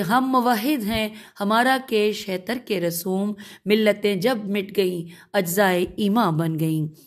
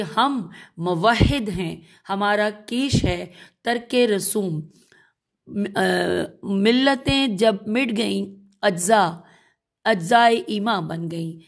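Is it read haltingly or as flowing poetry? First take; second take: flowing poetry; haltingly. First: It is recited smoothly in poetic rhythm. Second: It is read haltingly, word by word.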